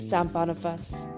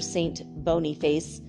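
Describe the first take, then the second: First: The name is pronounced with French sounds. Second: The name is pronounced with English sounds. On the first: The speaker calls it right. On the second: The speaker calls it wrong.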